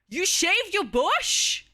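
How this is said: It sounds shocked and surprised.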